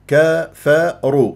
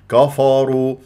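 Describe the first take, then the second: First: The k and f sounds are light. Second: The k and f sounds are heavy. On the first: The speaker calls it right. "إذا كفروا" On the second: The speaker calls it wrong. "حتى لا تفخم الكاف والفاء لمجاورتها للراء فتقول خطأ كفروا"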